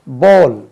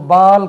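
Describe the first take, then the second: First: The vowel is a rounded 'aw'. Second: The vowel is an open, unrounded 'ah'. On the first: The speaker calls it right. "इसका उच्चारण बोल" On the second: The speaker calls it wrong. "हम इसको बाल कहते हैं"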